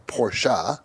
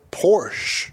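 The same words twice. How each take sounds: First: "Porsche" said as POR-shah; Porsche as two syllables. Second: "Porsche" said as PORSH, no final vowel; Porsche as one syllable. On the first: Host offering the other way to say the carmaker, "Porsche" as por-shah. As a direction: sound the final e of "Porsche" as "ah". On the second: Host offering one way to say the carmaker, "Porsche" as one syllable. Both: Shown as a demonstration. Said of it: "however you wanna say it".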